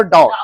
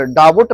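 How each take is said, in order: First: डाउट straight through as "dowt"; correct pronunciation. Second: डाउट said "DAA-vut", a b-like middle; wrong pronunciation. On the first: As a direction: say डाउट in one beat, silent b. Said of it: "उसको सीधे पढ़ो". (डाउट में 'ब' चुप रखें) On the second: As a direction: break डाउट in two with a b. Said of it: "नहीं पढ़ेंगे". (डाउट को 'डाबट' बोलें) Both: Shown as a demonstration.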